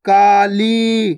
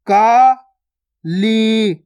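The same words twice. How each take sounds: First: काली joined, both vowels long; joined, stretched word. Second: काली split as kaa, pause, lee; syllable by syllable. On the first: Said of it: "खींच के पढ़ना है". (काली मिलाकर, खींचकर) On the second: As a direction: slowly sound out काली in two held syllables. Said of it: "direct मात्रा का उच्चारण करके पढ़ेंगे". (काली को तोड़कर, का... ली) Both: Shown as a demonstration.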